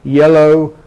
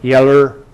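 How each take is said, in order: First: The final vowel is a full oh sound. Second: The final vowel is an r-colored er sound. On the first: "it doesn't happen in R P" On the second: "this schwa may be regularized to er"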